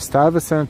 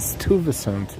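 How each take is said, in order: First: The name is pronounced the English way. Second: The name is pronounced the Dutch way. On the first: "is the English version" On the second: "is Dutch"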